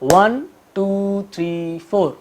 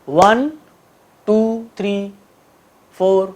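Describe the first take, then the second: First: The numbers are counted at an even, steady pace. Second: The numbers are counted at an uneven, irregular pace. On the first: The speaker calls it right. "बराबर लय में बोलेंगे" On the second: The speaker calls it wrong. "गलत तरीके से भी करके दिखाता हूं"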